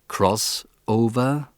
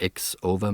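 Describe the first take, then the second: First: The X is spoken as the word cross. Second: The X is spoken as a letter name. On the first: The speaker calls it right. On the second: The speaker calls it wrong.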